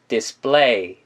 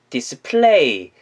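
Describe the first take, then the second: First: The p is a tense, unaspirated sound. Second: The p is a breathy, aspirated sound. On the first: The speaker calls it right. "된 소리, 쌍비읍 발음을 붙이면서" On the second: The speaker calls it wrong. "이렇게 하지 마시고요"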